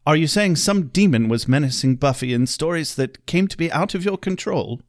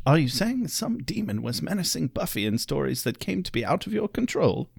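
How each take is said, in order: First: Lightly voiced stern British librarian; a hint of a fussy English scholar; Giles impression. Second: Softer, worn-out take on Giles; a tired, hoarse-ish English mentor; strained Giles voice. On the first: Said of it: "I'll help you imagine Giles a little better". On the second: Retold or imitated. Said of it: "I could get that more raspy Giles impersonation going".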